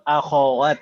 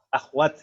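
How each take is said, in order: First: A short a vowel follows the kh sound. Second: No vowel follows the kh sound. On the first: This is the original Arabic form. The speaker calls it right. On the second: This is the borrowed Indonesian form. The speaker calls it wrong. "bahasa Indonesia itu sudah jadi bahasa serapan ... jadi sukun"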